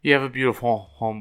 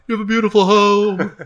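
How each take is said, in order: First: Nervous overly polite. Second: High, squeaky mock-shy compliment; nervous overly polite. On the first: Acted. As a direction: slip the compliment in shyly. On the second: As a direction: gush it in a tiny high voice. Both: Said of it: "I, I, I'm shy".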